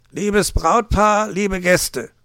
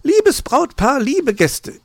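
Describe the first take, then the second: First: Slow, loud, raised fox voice; stately, loud greeting to guests; microphone announcement. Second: Very high, loud magpie greeting; high-pitched, loud opening to guests; magpie's announcement. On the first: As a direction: open a speech in drawn-out announcer style. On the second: Magpie takes over the microphone. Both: A narrator's reading.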